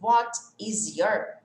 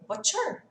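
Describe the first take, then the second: First: Each word is said fully and separately. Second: The first two words merge into one contraction.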